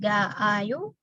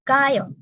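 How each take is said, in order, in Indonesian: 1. Vokal a diucapkan dua kali, ga lalu ayo. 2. Vokal a diucapkan sekali, seperti gayo. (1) "Ga ditambah ayo jadi ga ayo" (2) "a-nya cukup satu aja"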